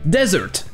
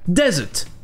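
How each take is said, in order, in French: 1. Le son R est bien prononcé. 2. Le son R est muet. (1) "En anglais américain, ça se prononcera desert, avec le R prononcé" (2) "en Angleterre, le R sera muet"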